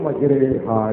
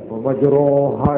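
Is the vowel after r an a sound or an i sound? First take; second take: i sound; a sound. First: The vowel after r sounds like i. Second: The vowel after r sounds like a.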